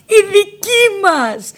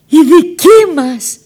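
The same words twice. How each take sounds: First: Very high, slow "Η δική μας" in tearful joy; joyful cry. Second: High, loud, slow cry of joy; shout of joy. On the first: Nina hugs the officer, crying out high in joy. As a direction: sing out "Η δική μας" slowly, near tears. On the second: Nina greets the officer, shouting slowly with joy. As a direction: cry it out beside herself with joy. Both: Retold or imitated. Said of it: "άρχισα να φωνάζω έξαλλη από χαρά".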